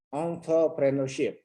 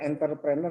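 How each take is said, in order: First: The first syllable is nasal with rounded lips. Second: The first syllable is plain, not nasal or rounded. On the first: The speaker calls it right. "Yang benar itu onto. Jadi agak-agak monyong dikit tuh mulutnya itu, agak-agak sengau ya" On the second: The speaker calls it wrong. "Jadi bukan entrepreneur ya"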